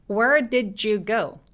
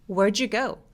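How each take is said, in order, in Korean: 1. did의 첫 번째 d는 발음합니다. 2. did의 첫 번째 d는 생략합니다.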